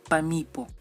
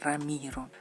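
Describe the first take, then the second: First: The consonants are said as P sounds. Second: The consonants are said as R sounds. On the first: The speaker calls it wrong. "No es pa Pamipo" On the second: The speaker calls it right. "es Ramiro"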